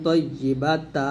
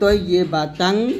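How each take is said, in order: First: The word ends in a lengthened 'ta' vowel. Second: The word ends in a full '-tan' ending. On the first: "এক লিফ টেনে পড়তাম, কিন্তু কিন্তু এখানে এক লিফ টান হবে না" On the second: "যদি আমরা ওয়াকফ না করি তাহলে তয়্যিবাতান এরকম বলবো"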